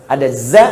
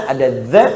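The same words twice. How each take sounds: Both takes have the same delivery.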